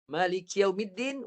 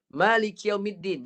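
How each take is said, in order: First: Maliki yaumiddin with din closing into the nose; recited again. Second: Maliki yaumiddin recited with the final din hummed. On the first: Teacher repeating verse for students to hear. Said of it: "Dengar, eh". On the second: Teacher reciting Fatihah verse as example. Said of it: "saya baca ayat". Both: Shown as a demonstration.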